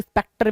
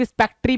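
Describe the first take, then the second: First: स्पेक्टर ending in "-ter"; alternative pronunciation. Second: स्पेक्ट्री ending in a "tree" sound; variant pronunciation. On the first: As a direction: say स्पेक्टर with a final "tur" sound, no "ee". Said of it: "कुछ लोग स्पेक्टर भी पढ़ते हैं". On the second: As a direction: say स्पेक्ट्री with final "-tri", as some readers do. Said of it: "कुछ लोग स्पेक्ट्री भी पढ़ते हैं". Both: Shown as a demonstration.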